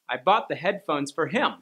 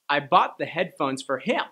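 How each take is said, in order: First: The stress falls on the word him. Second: The same.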